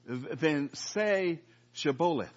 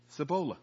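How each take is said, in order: First: Shibboleth said slowly, with a clear sh at the start; correct Shibboleth. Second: Cibola with a plain s at the start instead of sh; mispronounced Shibboleth. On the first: Gileadite guards testing a fugitive, slow deliberate Shibboleth. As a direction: stretch out Shibboleth, sh sound first. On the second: Ephraimite fugitive fails the test, s for sh. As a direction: say Cibola, s not sh, like a failed password. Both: Retold or imitated. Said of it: "for he could not pronounce it right".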